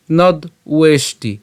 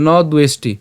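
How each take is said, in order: First: "নদ উয়েষ্টি" slowly split after the d; slow, separated "নদ উয়েষ্টি"; broken-up pronunciation. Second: "ন দ্বেষ্টি" run together smoothly; "ন দ্বেষ্টি" in one connected go; joined pronunciation. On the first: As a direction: say "নদ", pause, then "উয়েষ্টি". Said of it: "আমরা অবশ্যই এটা একসাথে উচ্চারণ করবো". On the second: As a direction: say "ন দ্বেষ্টি" with d flowing into ue. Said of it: "একসাথে উচ্চারণ করবো". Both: Shown as a demonstration.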